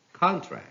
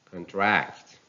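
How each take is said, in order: First: "contract" as CON-tract, high start; stress on first syllable. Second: "contract" as con-TRACT; stress on second syllable. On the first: Teacher reading a noun, "contract" stressed on CON. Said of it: "stress on the first syllable". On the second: Teacher reading a verb, "contract" stressed on TRACT. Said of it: "stress falls on the second syllable". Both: Shown as a demonstration.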